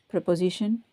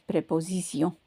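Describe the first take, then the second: First: It is pronounced with English sounds. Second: It is pronounced with French sounds. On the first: "in English, we say preposition" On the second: "In French, is préposition"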